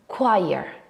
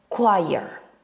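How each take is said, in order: First: It starts like the word 'quiet'. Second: The same.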